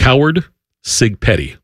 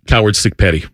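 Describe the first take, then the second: First: It is said slowly and deliberately. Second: It is said at a normal, quick pace.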